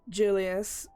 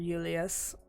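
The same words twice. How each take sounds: First: It starts with an ordinary English J sound. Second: It starts with an unusual, non-English J sound. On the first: The speaker calls it wrong. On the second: The speaker calls it right.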